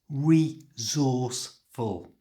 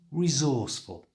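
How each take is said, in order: First: The word is said slowly and carefully. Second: The word is said at normal speed. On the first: "So it's resourceful" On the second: "At normal speed"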